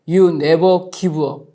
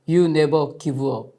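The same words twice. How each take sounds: First: It is said in the loudest voice. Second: It is said in a somewhat louder voice. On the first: "다시 더 큰 소리로" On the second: "조금 더 큰 소리로 말합니다"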